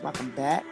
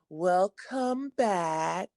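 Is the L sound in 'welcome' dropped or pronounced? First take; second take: dropped; pronounced. First: The L sound in welcome is dropped. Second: The L sound in welcome is pronounced. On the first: The speaker calls it wrong. "You always say welcome and don't even realize you're saying it" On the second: The speaker calls it right. "Let me let me say it correctly"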